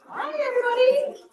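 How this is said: It is said in a high-pitched voice.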